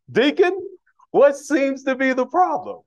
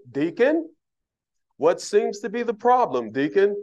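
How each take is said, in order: First: Higher and louder, a mock stern pastor calling out the deacon; hammed-up pastor demanding an answer; booming pastor voice. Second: Pastor's stern question. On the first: Pastor questioning the deacon at the church door, hammed-up booming and high. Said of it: "Pastor don't talk like that". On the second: Retold or imitated. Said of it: "pastor probably be standing there looking at me".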